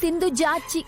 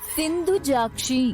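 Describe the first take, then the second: First: The name ends with a plain 'chi' sound. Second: The name ends with a 'kshi' cluster sound. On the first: The speaker calls it wrong. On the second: The speaker calls it right.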